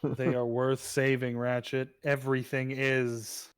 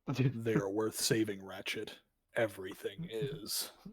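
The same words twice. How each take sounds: First: It is said in a plain, natural voice. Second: It is said in a deep put-on character voice.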